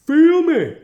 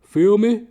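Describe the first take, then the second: First: High, loud yelled hype; hyped shout. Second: Louder, higher tough-guy call; hyped. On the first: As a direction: blast it out like a swaggering bro. Escalated tough-guy hype. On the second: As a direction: pump it up like a swaggering bro. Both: Pretend.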